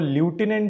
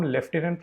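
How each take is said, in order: First: The first syllable sounds like 'loo'. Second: The first syllable sounds like 'lef'. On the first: "spelling आपको ल्यूटिनेंट दिखेगी" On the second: "इसको हम लेफ्टिनेंट pronounce करते हैं"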